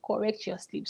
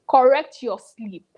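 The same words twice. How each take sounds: First: "Correct your sleep" repeated softly under the breath; quiet echo. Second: "Correct your sleep" said slowly and louder, each word hit; slow emphatic retort. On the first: Real, not acted. Vlogger repeating the quote, softly. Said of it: "are we expecting another one". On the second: Retold or imitated. Quoting Pluto's reply to fans, slow and firm. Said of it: "And then he's going".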